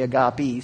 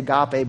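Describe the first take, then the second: First: It is said with the Greek pronunciation. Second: It is said with the usual English pronunciation. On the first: "the Greeks say agape" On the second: "we say agape"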